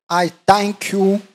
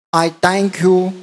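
No difference in how they are said.

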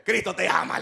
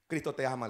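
First: Louder, proclaiming Cristo te ama; emphatic. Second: Said in the usual way. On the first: Acted. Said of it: "¿Se acordó que era creyente?". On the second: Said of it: "le dijo".

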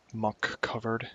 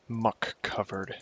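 First: Said in the usual way. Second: "Muck covered" drawn out word by word; slow, deliberate "Muck covered". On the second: Shown as a demonstration. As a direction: spell out "Muck covered" slowly. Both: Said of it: "Try saying that three times fast".

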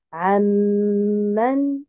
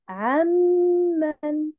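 First: Amman very slowly with a doubled m; correct amman. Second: Amman higher and slow, stress misplaced; wrong amman. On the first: Teacher models amman slowly for the class. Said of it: "je dis amman". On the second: Teacher contrasts the wrong amman for students. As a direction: show the incorrect amman. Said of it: "et non pas". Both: Shown as a demonstration.

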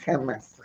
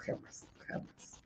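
First: "jamás" dicho firme con caída final; plain. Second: "jamás, jamás" casi susurrado y lento; susurro enfático. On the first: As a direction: insiste en "jamás". ("jamás" firme y claro) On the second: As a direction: insistencia sin voz en "jamás, jamás". ("jamás, jamás" en susurro lento) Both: Real, not acted. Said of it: "borracho jamás".

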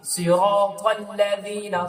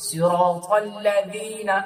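First: Slow, the তা in সিরাতাল্লাযীনা sounded fully; slow, stress the তা before ল্লাযীনা; clear ta. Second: Slow, যী in সিরাতাল্লাযীনা with tongue tip at teeth; soft za. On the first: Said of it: "তা এখানে উচ্চারণ করবেন". (তা স্পষ্ট করে) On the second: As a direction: make যী a soft z, not জি. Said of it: "আর জিনা পড়বেন না". (যী, জিনা নয়) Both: Shown as a demonstration.

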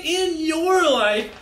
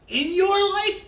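First: "in your life" stretched slow and firm; emphatic confirmation. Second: IN YOUR LIFE as a high, surprised question; questioning echo. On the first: Guide confirms it to the children, slow emphatic "in your life". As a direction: answer "in your life" slowly, landing each word. Answers own question emphatically. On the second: Guide questions what the book says, high disbelieving "In your life?". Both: Acted.

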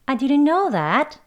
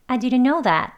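First: "I didn't know that" high and slow, stressed "know", rising end; rising intonation. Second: "I didn't know that" with stress on "know" and a falling end; falling intonation. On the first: Teacher shows a second, rising intonation. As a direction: lift the end as if surprised. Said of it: "이렇게 발음하는 억양도 있어요". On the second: Teacher shows one intonation for the phrase. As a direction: let it fall after "know". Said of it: "이렇게 발음하는 이제 인토네이션". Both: Shown as a demonstration.

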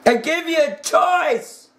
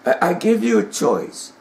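First: "choice" pushed higher and harder; insistent repeat. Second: Said in the usual way. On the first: Retold or imitated.

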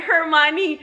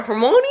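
First: Higher, carefully separated "Hermione"; correct pronunciation. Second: Short, questioning garbled "Hermione"; Krum's mispronunciation. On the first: Hermione teaching Krum her name, careful pronunciation. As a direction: say "Hermione" with every syllable clear, her-MY-oh-nee. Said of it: "She said". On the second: Suitor struggling with her name, mangled pronunciation. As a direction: run "Hermione" together as her-MO-nee, rising. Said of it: "can't even pronounce my bitch name". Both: Retold or imitated.

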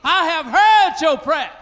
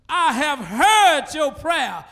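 First: Louder shouted repeat; shouted proclamation. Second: Slow quote. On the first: Preacher shouting God's words to the church. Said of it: "I wish I had a praying church". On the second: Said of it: "he says". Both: Acted.

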